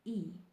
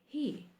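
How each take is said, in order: First: The word begins without any h sound. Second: The word begins with a clear h sound. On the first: The speaker calls it right. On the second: The speaker calls it wrong.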